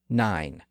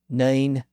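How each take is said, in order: First: The vowel is the modern eye sound. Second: The vowel sits between ee and eye. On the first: This is the present-day pronunciation. "we would say nine" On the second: This is the early modern pronunciation. "Shakespeare would have said nine"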